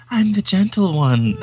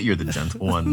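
First: Put-on high, drawn-out effeminate old man; effeminate cat-like man. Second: Said in the usual way. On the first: Imitating the film's strange old cat man, high effeminate croon. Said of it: "most disturbingly effeminate, cat-like old Chinese man".

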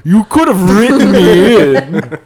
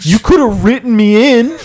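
First: Slow, drawn-out villainous complaint; hammed-up, slow character voice; Madara voice. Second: High, wounded protest; hammed-up hurt without a character voice; out-of-character complaint. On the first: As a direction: stretch out every word as a wronged anime villain. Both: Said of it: "Sorry, I'm not doing the Madara voice".

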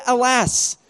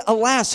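First: Said in the usual way. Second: "Alas" in a put-on, mock-dramatic voice; mock-archaic alas. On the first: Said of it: "I wonder if this is the edited version". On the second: Shown as a demonstration. Preacher mocking the servant's quaint cry, mock-dramatic. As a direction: poke fun at the old word "Alas". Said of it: "Who says, "Alas"?".

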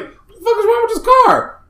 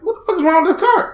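First: Much higher, stunned cry of disbelief; baffled outburst. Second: High and fast, rushed disbelief; quicker baffled outburst. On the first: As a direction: yelp it up high in shock at the car. Retold outraged reaction at car. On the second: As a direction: fire it off quick and high, exasperated. Same reaction repeated in traffic. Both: Retold or imitated.

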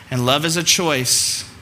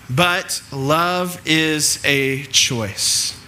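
First: Said in the usual way. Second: "but love is a choice" drawn out very slowly, each word weighted; slow, stressed choice. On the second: Shown as a demonstration. Preacher stressing to his congregation that love is a choice, drawn out slowly.

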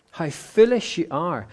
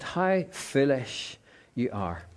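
First: Said in the usual way. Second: A touch of Jesus, slow and hushed; a slow, quiet, sorrowful reproach; lightly voiced Jesus chiding softly; gentle rebuke. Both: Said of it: "And so Jesus said to them".

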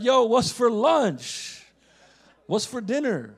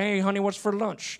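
First: Put-on slow, drawn-out street-ball accent; imitated basketball-buddies accent. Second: Put-on picked-up Joco country accent; imitated Joco accent. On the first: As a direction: mimic the basketball crew's accent, louder and stretched out. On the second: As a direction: mimic a Joco country accent coming home. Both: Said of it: "I'll go home with the accent".

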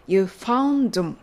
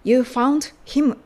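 First: "You found him" with no H in "him"; "him" weakened to "um", linked onto "found"; dropped H. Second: Said in the usual way. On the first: Shown as a demonstration. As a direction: join "found him" as "foun-dum". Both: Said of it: "himのHが脱落して".

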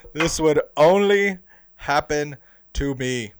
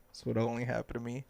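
First: Slow, much louder, drawn-out lament; a loud, slow cry of disbelief; exasperated. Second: Quick and much softer, under the breath; a quick quiet grumble to yourself; muttering. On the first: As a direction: wail it slowly to the sky, fed up. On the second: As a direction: mutter it fast to yourself in disbelief. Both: Retold or imitated. Hat just got thrown.

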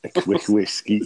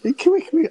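First: Said in the usual way. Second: Much higher and louder, teasing laugh; mocking echo. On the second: Real, not acted. Teasing his mate about the whiskey, high mocking echo. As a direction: rib him for the quick whiskey.

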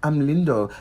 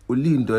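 First: Said in the usual way. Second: Put-on Lindo said in a mild Vernac accent as Ulindo, with a u- prefix; imitating a shop assistant saying Ulindo the Vernac way; mild mock Vernac accent. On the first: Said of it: "And I'm like". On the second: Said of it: "why are you saying it in a Vernac accent".

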